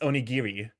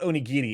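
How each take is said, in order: First: The middle consonant sounds like an R. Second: The middle consonant sounds like a D. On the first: The speaker calls it right. "you're supposed to actually pronounce the R" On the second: The speaker calls it wrong. "it's not onigiri"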